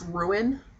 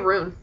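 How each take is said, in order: First: The word is said in a careful, full form. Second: The word is said in a casual, reduced form. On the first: "So I guess it's ruin" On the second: "normally I just say rune"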